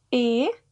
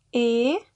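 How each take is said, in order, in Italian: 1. La vocale è una E chiusa. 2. La vocale è una E chiusa.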